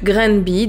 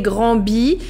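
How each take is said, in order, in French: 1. Granby se prononce avec la prononciation locale. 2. Granby se prononce avec une prononciation française standard. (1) "j'ai entendu Granby, donc je pense que c'est comme ça qu'il se prononce" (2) "mon français me dirait Granby"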